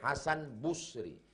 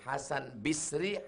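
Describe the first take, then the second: First: The first syllable has the vowel u. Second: The first syllable has the vowel i.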